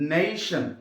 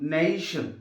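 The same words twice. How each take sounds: No difference in how they are said.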